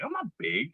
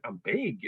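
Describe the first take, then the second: First: Much higher, squeaky indignant denial; mock denial. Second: Softer, flat dawning acceptance; deadpan realization. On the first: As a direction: deny it in a high mock-hurt voice. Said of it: "And then I'm like". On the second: Retold or imitated. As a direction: let it sink in quietly. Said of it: "And I went".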